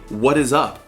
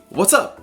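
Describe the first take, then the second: First: The word 'is' is said in full. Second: The word 'is' is contracted into 'what's'. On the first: It sounds very formal. The speaker calls it wrong. "I feel like that's wrong" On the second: It is the usual casual greeting. The speaker calls it right. "it's supposed to just be"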